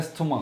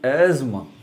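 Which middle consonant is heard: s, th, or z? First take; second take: th; z. First: A clear th sound is pronounced mid-word. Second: A z sound is pronounced mid-word. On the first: The speaker calls it wrong. "टी एच जो है उसकी आवाज़ बहुत खोल के निकालते हैं" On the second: The speaker calls it right. "जेड की आवाज़ आवाज़ आएगी"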